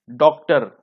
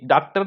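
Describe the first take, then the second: First: डॉक्टर with a rounded "aw"; correct vowel demonstration. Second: डॉक्टर said as "daak-tar"; wrong-example डॉक्टर with आ in place of ऑ; mispronunciation demonstration. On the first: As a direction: say डॉक्टर as "dawk-tar". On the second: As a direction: use a long "aa" in डॉक्टर. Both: Shown as a demonstration. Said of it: "न कि डॉक्टर नहीं".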